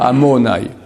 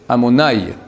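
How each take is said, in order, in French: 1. L'accent est sur une syllabe plus loin. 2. L'accent est sur la première syllabe. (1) "Pas amonaï" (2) "C'est comme ça, l'accent est dans le a"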